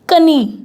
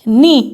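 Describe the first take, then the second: First: A k sound is pronounced before the n. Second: The word begins directly with the n sound. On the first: The speaker calls it wrong. "आपने कभी भी ऐसे नहीं बोलना" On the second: The speaker calls it right. "इसमें के word alphabet के silent है"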